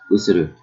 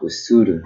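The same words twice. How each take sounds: First: All syllables are even, with no stress. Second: One syllable is stressed more than the others. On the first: The speaker calls it right. "We don't stress in Japanese" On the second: The speaker calls it wrong. "not usuru"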